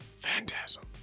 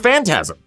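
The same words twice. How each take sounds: First: The word is said in a creepy voice. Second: The word is said in a plain voice. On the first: "that just felt creepy" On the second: "I don't like saying it like that"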